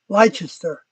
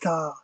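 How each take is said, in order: First: The name is said the speaker's usual way. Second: The name is said the short local way. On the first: This is how an outsider would say it. "like I would say it as Leicester" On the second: This is how people from the place say it. "Lesta is the local pronunciation"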